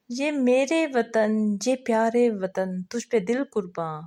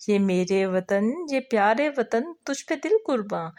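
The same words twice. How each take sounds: First: Slow, drawn-out first recital of the lines; verse recitation. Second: The same lines again, a little quicker and fuller; repeated recitation. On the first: Teacher chanting a patriotic song line for the second group member, slowly. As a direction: stretch each phrase like a slow chant. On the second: Teacher repeating the verse for the second member, sing-song. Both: Shown as a demonstration.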